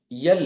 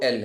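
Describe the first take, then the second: First: "یل" with an added y at the start, "yal"; wrong pronunciation. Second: Said in the usual way. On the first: Shown as a demonstration. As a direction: say L wrongly as "یل", y sound first. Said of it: "یہ wrong ہے". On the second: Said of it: "یہ صحیح جو ہے وہ ایل".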